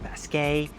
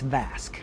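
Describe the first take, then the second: First: The name ends with an added final syllable. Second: The name ends without an added final syllable. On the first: The speaker calls it wrong. "As a kid, I always called it Vasquet, but it's not" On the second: The speaker calls it right. "It's Vasque"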